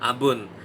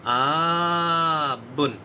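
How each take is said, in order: First: The first vowel a is short. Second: The first vowel a is long. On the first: It means father. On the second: It names a Syriac month.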